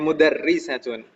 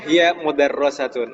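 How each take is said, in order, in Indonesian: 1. Vokal setelah r ganda itu i. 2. Vokal setelah r ganda itu a. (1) "tapi mudarrisatun gitu" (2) "Jangan sampai dibaca ... hiya mudarrasatun"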